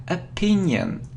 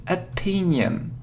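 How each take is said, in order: Both takes have the same delivery.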